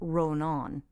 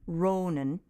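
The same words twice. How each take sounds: First: Both vowels are long. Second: Only the first vowel is long. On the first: "since it's on both vowels" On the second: "if it were only on the first syllable"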